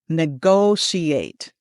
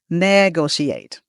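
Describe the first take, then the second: First: The stress is on the second syllable. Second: The stress is on the first syllable. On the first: The speaker calls it right. "The emphasis is on the second syllable, on the go" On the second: The speaker calls it wrong. "Some people put it on the first syllable and it sounds like this"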